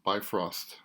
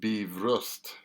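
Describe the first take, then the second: First: The name is pronounced the English way. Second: The name is pronounced the Icelandic way. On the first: "in English" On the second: "in Icelandic"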